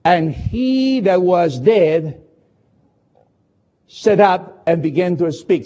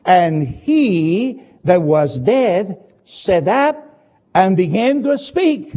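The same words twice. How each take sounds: First: Slow, deliberate reading, pause after dead; don't rush a word of it; slowly. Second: Very slow, each word set apart; drawn-out reading of "sat up"; slowly. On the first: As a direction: read "And he that was dead" slowly and weighed. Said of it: "Don't read the last sentence of verse fifteen too quickly". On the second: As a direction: savour every word. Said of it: "The Bible said in verse fifteen clearly". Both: Shown as a demonstration.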